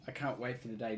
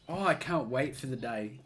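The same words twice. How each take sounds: First: "I can't wait for the day" repeated softer, as if to himself. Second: Said in the usual way. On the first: Real, not acted. Repeating to his friends that he can't wait, softly to himself. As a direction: drop "I can't wait for the day" to an eager murmur.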